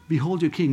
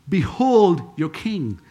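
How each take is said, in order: First: Said in the usual way. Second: Slow, emphatic "Behold your king"; stately announcement, stretched out; slow proclamation. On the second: Acted. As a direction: draw out a strong "Behold", then "your king". Pilate presenting Jesus, first take.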